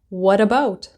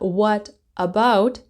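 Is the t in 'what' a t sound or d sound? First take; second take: d sound; t sound. First: The t in what sounds like a d. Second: The t in what is a clear t. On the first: "the T turns into a D sound" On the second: "the T"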